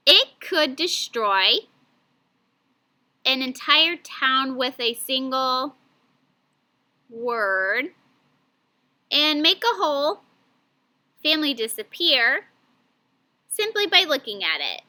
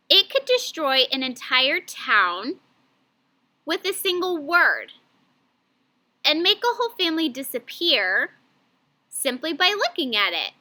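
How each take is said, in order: First: Choppy chunked reading. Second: Phrase it smoothly, fewer breaks; smoother phrasing. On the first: Teacher demoing badly chunked reading to class. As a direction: read it in awkward chopped-up pieces. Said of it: "that was kind of hard to understand the way that I chunked those words together". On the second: Teacher rereads the sentence more fluently for students. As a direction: read in longer natural scoops. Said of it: "Wow, that sounded way better". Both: Shown as a demonstration.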